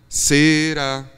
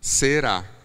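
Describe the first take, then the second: First: The stress falls on the first syllable. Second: The stress falls on the last syllable. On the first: The speaker calls it wrong. "a melodia pede a sílaba tônica na primeira sílaba. Então fica será" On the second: The speaker calls it right. "Porque a palavra é será"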